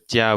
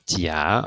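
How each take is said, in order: First: The pitch stays high and level. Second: The pitch rises from mid to high. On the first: It means good. "we have in the first tone" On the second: It means cheek. "in the second tone"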